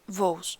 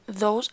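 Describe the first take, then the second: First: The word begins with a v sound. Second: The word begins with a th sound. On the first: "f, and v" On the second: "instead of a, th, or th"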